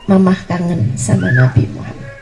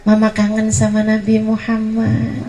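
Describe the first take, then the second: First: Lower, softer, aching repeat of the line; tender longing. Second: Said in the usual way. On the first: Acted. Mother repeating to her child that she misses the Prophet, tenderly low. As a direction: let the longing sink in on the repeat.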